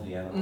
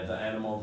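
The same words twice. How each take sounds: First: "the" before animal said "thee". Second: "the" before animal said "thuh". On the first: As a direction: say "the" with a long E. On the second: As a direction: say "the" with a neutral vowel. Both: Shown as a demonstration. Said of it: "the or the".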